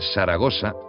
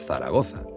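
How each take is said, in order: First: The z letters are pronounced with an s sound. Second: The z letters are pronounced with a th sound. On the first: "usamos eses donde no las hay" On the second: "en lugar de"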